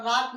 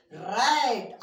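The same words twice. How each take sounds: First: राट with a long "aa" vowel; wrong long-AA reading. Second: रैट with a stretched open "ae"; teacher's model रैट with "ae", not "aa"; correct AE vowel. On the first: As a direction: misread rat as राट, "raat". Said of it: "राट नहीं पढ़ेंगे". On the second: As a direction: say रैट as English rat, "raet". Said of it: "आरएटी राट नहीं पढ़ेंगे". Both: Shown as a demonstration.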